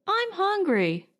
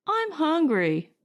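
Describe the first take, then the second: First: Put-on much higher, pleading boy's whine; a hungry kid pushing his point; insistent young boy. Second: Put-on a boy's whine, pitched higher; small son complaining about dinner; young boy. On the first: Billy repeats to his father that he's hungry, high insistent whine. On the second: Young son Billy tells his father he's hungry, high childish whine.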